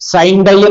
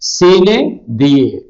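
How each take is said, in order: First: It sounds like the English words 'sign dye'. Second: It is said with two syllables per word. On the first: The speaker calls it wrong. "സൈൻ ഡൈ എന്നല്ല പ്രൊനൗൺസ് ചെയ്യേണ്ടത്" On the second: The speaker calls it right.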